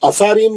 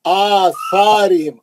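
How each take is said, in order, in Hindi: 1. पहला स्वर छोटा है। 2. पहला स्वर लंबा है। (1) "नहीं" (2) "आ अलिफ पे खड़ा जबर है"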